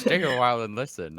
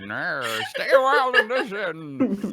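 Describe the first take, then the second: First: Put-on a light, loud try at an old sage; first stab at the wise old storyteller; Deckard Cain voice. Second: Put-on much higher, louder old sage through laughter; hammed-up wise old storyteller, giggling; Deckard Cain voice. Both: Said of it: "I'm Deckard Cain".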